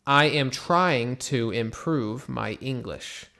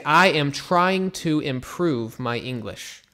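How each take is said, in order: First: Measured, even and clear; steady repeated model read; slow model sentence again. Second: Slowly and clearly, word by word; careful teacher's model read; slow model sentence. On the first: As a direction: repeat it calmly for the class. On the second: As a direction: spell it out for learners. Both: Shown as a demonstration. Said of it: "so you could say".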